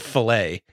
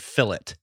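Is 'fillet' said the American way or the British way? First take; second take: American; British. First: It is said with an American, French-like pronunciation. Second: It is said with a British, anglicized pronunciation. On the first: "instead of fillet" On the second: "the British, God bless them, they anglicize a lot of, like, for instance, French words. Like, they'll say fillet"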